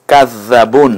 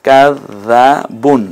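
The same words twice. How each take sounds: First: Said in the usual way. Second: কাজ্জাবুন drawn out in separate syllables; slow demonstration. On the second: Shown as a demonstration. Teacher demonstrating tashdid and tanween, slow syllables. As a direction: stretch কাজ্জাবুন very slowly, piece by piece. Teacher repeats it slowly in pieces.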